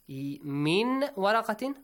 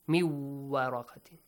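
First: The n sound is heard clearly before the w. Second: The n sound merges into the following w. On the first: "waw comes after noon" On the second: "merge the sound"

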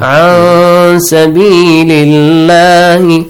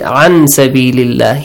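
First: The n sound is hidden into a nasal hum. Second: The n sound is pronounced clearly and fully. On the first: The speaker calls it right. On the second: The speaker calls it wrong.

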